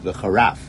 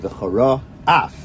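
First: The two words run together without a break. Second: A short break separates the two words. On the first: It sounds like a single different word. The speaker calls it wrong. "it could just sound like V'charaf" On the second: The two words stay distinct. The speaker calls it right. "So you say V'chara Af"

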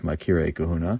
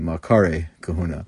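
First: The first word's middle vowel sounds like 'ee'. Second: The first word's middle vowel sounds like 'ah'. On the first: The speaker calls it wrong. "Sometimes it appears with a yud there" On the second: The speaker calls it right. "the pronunciation probably should be"

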